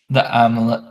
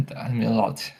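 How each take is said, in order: First: Said in the usual way. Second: "amulet" said as ah-mu-LOT; playful mispronunciation. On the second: Shown as a demonstration. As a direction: softly say "amulet" with a mock-fancy "-lot" ending. Repeats word with altered pronunciation.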